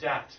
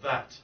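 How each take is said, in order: First: The word begins with a hard D sound. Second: The word begins with a soft TH sound. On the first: The speaker calls it wrong. "you cheat and say dat" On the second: The speaker calls it right. "instead of that"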